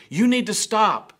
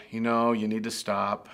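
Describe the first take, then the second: First: High, loud urgent command; frightened shout. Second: Put-on calm, even warning to a child. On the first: Retold or imitated. Parent shouting at a child near traffic, frightened shout. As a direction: yell it as the car comes. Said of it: "emotion and fear that was also tied up". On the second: Parent calmly warning a child near the street, calm. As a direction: say it calmly, no alarm at all. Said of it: "We didn't just calmly say".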